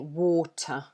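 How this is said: The middle t is a clear, crisp t. "we would say water. So T is very, it's very clear"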